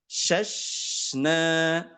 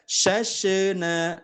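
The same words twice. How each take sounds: First: The middle sh sound flows smoothly without bouncing. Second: The middle sh sound bounces with a release. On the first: The speaker calls it right. "tidak memantul tapi shashna" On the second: The speaker calls it wrong. "pastikan tidak shashna"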